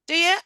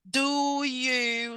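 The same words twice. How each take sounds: First: The two words run together in a reduced form. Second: The two words are said separately and fully. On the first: The speaker calls it right. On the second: The speaker calls it wrong.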